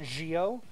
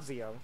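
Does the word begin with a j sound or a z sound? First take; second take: j sound; z sound. First: The word begins with a soft j sound. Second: The word begins with a z sound. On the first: The speaker calls it right. "I pronounce it like a like a soft J sound" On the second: The speaker calls it wrong. "I keep getting this wrong. It's not Zio"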